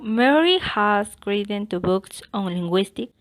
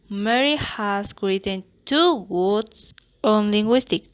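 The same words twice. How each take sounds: First: The word Mary is stressed, falling high to low. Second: A word other than Mary is stressed.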